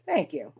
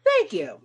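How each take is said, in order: First: Said in the usual way. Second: Pleased thank you, pitched up; bright thanks. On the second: Real, not acted. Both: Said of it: "Nice botanical metaphor".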